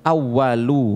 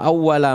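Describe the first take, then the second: First: The word ends with a 'u' vowel. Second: The word ends with an 'a' vowel. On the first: The first thing is the subject and worship is the predicate. "Boleh juga dibaca falyakun awwalu" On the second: The first thing is the predicate and worship is the subject. "Itu kalau dibaca awwala lalu ibadatullah"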